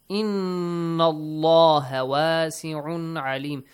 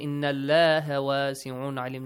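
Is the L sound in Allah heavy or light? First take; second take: heavy; light. First: The L in Allah sounds full and heavy. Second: The L in Allah sounds thin and light. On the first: The speaker calls it right. "The lam of the word Allah will be pronounced heavily" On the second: The speaker calls it wrong. "Do not say"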